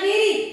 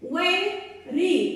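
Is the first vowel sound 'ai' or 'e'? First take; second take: e; ai. First: The first vowel is a plain 'e' sound. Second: The first vowel is a gliding 'ai' sound. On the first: The speaker calls it wrong. "वर एक मात्रा वे ... म्हटलं तर ते चुकीचं होईल" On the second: The speaker calls it right. "वर दोन मात्रे वै अशा पद्धतीने"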